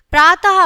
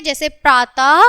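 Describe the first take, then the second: First: प्रातः said loud with a clear breathy "ha" at the end, praataha; प्रातः with an audible trailing ह sound; sounding the visarga. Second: Said in the usual way. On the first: Shown as a demonstration. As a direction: stress the final aspirated ह of प्रातः, louder. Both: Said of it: "प्रातः है का ध्वनि".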